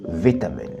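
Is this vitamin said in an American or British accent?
British. The first syllable sounds like "vit". "En anglais britannique, on dit vitamin"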